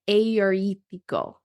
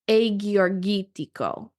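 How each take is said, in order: First: The g letters are said as y sounds. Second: The g letters are said as hard g sounds. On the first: The speaker calls it right. "I'm saying the Y sound like Y" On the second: The speaker calls it wrong. "So it looks like Agiorgitico"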